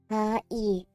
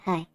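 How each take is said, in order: First: The two syllables are said separately. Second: The two syllables merge into one sound.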